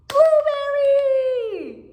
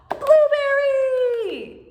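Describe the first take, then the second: First: It is said in an excited, eager tone. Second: It is said in an excited, eager tone.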